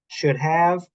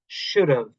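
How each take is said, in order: First: Both words are said fully and separately. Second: The words are blended into a short reduced form.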